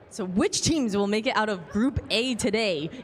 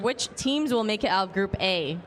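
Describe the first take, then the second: First: It is said in an esports caster voice. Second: It is said in the speaker's normal voice.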